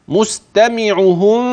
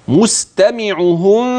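The two takes are said the same way.

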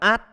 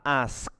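First: The word ending is clipped and unclear. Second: The word ending is pronounced fully and clearly. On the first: The speaker calls it wrong. "bình thường phát âm sai là ask" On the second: The speaker calls it right. "còn phát âm đúng nó sẽ là ask"

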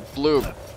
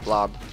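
First: The vowel sounds like the one in 'tube'. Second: The vowel sounds like the one in 'job'. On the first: The speaker calls it right. "It's a bloob. Say it right" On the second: The speaker calls it wrong. "stop saying blob"

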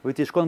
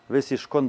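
First: The second consonant is a t sound. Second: The second consonant is an s sound. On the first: "с точкой без точки все время будет таф" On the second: "он будет все время говорить сишкон"

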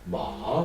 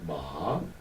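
First: It is said with the tone of 'horse'. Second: It is said with the tone of 'hemp'. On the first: It means horse. "마 그러면 우리가 타고 다니는 말" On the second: It means hemp. "마 이거는 우리가 좋아하는 대마"

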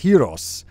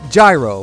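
First: It sounds like the word hero. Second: It sounds like the sandwich name gyro. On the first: The speaker calls it right. "it's Hiros" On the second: The speaker calls it wrong. "you don't pronounce it gyro like the sandwich"

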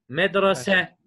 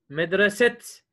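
First: The word ends on an open vowel. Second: The word ends with a t sound. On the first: The speaker calls it right. "Ne diye okuyorum? Bak, okunuşunu vermiş" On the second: The speaker calls it wrong. "Medreset diye okumuyorum arkadaşlar"

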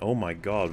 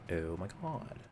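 First: It is said in a plain, ordinary voice. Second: It is said in a Valley girl accent. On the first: The speaker calls it wrong. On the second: The speaker calls it right.

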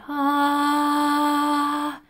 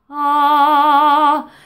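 First: The voice is airy and breathy, not focused. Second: The voice is clear and focused, not airy.

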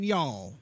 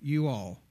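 First: It is contracted into one syllable. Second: It is said as two full words. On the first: This is how it is said in Texas. The speaker calls it wrong. "In Texas, they would say in y'all" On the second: This is how it is said in Oklahoma. The speaker calls it right. "In Oklahoma, we say it correctly"

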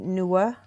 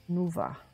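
First: The middle consonant is a W sound. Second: The middle consonant is a V sound. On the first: "But it could be" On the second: "pronounced with the V sound. Kind of like the German"

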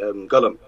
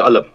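First: The first consonant is a back q-like sound. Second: The first consonant is a glottal stop. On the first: "In Sudan we're going to say قلم" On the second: "in Masr they're not going to say قلم, they say قلم"

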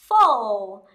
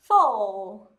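No difference in how they are said.

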